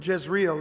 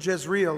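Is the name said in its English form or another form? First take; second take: English form; English form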